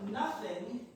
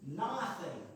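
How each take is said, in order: First: The first vowel sounds like the u in but. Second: The first vowel is drawn out, like in hot.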